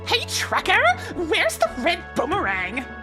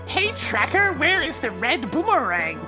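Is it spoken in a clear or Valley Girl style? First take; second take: Valley Girl; clear. First: It is spoken in a Valley Girl accent. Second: It is spoken with clear, careful enunciation. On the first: The speaker calls it wrong. "Valley Girl's not gonna work" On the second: The speaker calls it right. "You have to be much more clearly enunciating than that"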